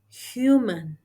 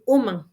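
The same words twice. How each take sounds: First: The word starts with an h sound. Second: The word starts without an h sound. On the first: The speaker calls it right. "instead of human" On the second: The speaker calls it wrong. "Many omit in saying human"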